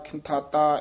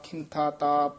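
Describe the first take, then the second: First: The syllables are joined into one word. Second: There is a break before the final syllable. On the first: The speaker calls it wrong. "ਇਉਂ ਨਹੀਂ ਉਚਾਰਨ ਕਰਨਾ" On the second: The speaker calls it right. "ਇਸ ਤਰ੍ਹਾਂ ਬੋਲਣਾ"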